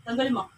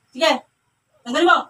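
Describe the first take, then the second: First: Said in the usual way. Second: Loud, urgent order; forceful command. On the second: Real, not acted. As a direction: demand obedience at raised volume. Repeats order forcefully to the spirit. (malakas at mariing utos)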